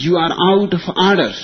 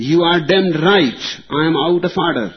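First: Fast, loud and higher gavel rebuke; stern exclamation. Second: Loud, higher defiant comeback; defiant retort. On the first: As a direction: snap it out like a chairman calling order. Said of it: "and exclaimed". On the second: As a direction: throw it right back at him. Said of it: "retorted the Republican". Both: Retold or imitated.

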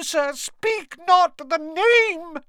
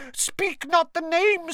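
First: Frantic elf. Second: Pleading elf. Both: A narrator's reading. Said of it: "repeated louder and slower".

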